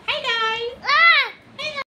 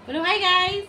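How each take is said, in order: First: Put-on squeaky baby voice. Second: Put-on prompting baby to say hi. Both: Shown as a demonstration.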